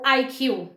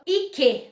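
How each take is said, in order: First: The letters are read with English letter names. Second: The letters are read with Portuguese letter names. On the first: The speaker calls it right. "seria a, a pronúncia correta" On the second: The speaker calls it wrong. "a gente acaba lendo no português"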